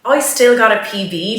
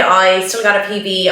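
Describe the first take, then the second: First: Said in the usual way. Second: "got" in "I still got a P B." leaned on hardest; stress on got. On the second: Real, not acted. Runner insisting to viewers she still got a PB, stress on got. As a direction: insist by hitting the word "got". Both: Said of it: "let's not take that away from me".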